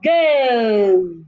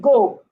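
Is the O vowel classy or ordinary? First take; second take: classy; ordinary. First: The vowel is a refined, classy O sound. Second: The vowel is an ordinary O sound. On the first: The speaker calls it right. "you want to say go" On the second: The speaker calls it wrong. "Instead of saying go"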